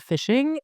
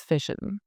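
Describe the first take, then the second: First: Said in the usual way. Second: "fishin'" ending in a plain n, no g; dropped G. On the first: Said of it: "So instead of fishing". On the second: Shown as a demonstration. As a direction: drop the g on "fishin'". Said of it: "things like drop G's".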